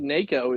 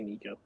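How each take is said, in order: First: The first vowel sounds like 'ay'. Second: The first vowel sounds like 'ee'. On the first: This is the technically correct pronunciation. "I think Nako is is how um it's technically supposed to be pronounced" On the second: This is the speaker's habitual pronunciation. "But I I say Nico"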